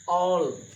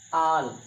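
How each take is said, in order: First: The vowel is a rounded 'aw' sound. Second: The vowel is an open, unrounded 'ah' sound. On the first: The speaker calls it right. "ऑल, क्या है, ऑल" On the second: The speaker calls it wrong. "बहुत सारे लोग इसे आल पढ़ते हैं ... आल आल जो है ना वो गलत है"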